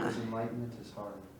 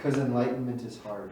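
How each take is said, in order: First: It is said quietly. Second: It is said loudly.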